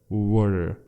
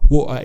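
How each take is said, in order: First: The t is a soft d-like flap. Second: The t is replaced by a glottal stop. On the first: "It's rather pronounced in the American accent" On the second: "it's a Cockney accent"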